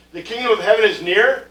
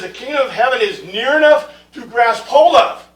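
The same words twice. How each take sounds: First: Said in the usual way. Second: Louder, higher, leaning on "near enough to grasp hold of"; corrected quote, emphatic. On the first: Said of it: "That's not what it says". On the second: Shown as a demonstration. Teacher correcting the misquoted verse for his class, emphatic stress. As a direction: drive home "grasp hold of" as the true reading. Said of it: "It says".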